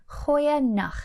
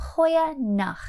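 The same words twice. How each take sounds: Both takes have the same delivery.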